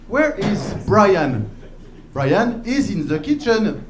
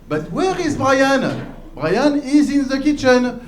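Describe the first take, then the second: First: Put-on slow, careful English in a French accent; lightly mocked French teacher's English accent; bad French-teacher English. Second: Put-on higher, slow, sing-out French-accented English; exaggerated French teacher's English, pitched up; bad French-teacher English. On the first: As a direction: recite a textbook dialogue with a French accent. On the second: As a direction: press the textbook question in a heavy French accent. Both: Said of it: "their accent is really, really bad".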